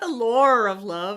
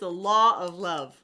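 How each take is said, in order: First: The word law is said with an r-like ending. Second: The word law is said without any r sound. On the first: The speaker calls it wrong. "It's not the lore of love" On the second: The speaker calls it right. "it's the law of love"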